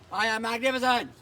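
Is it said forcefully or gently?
forcefully. It is said forcefully, with gusto.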